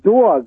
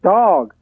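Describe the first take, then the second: First: It is said in a Brooklyn accent. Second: It is said in a Texas accent.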